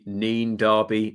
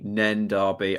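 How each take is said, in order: First: The name's vowel sounds like 'ee'. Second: The name's vowel sounds like short 'e'.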